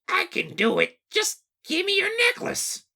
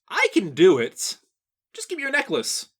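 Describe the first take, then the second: First: It is said in a squeaky Toad voice. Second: It is said in a normal speaking voice.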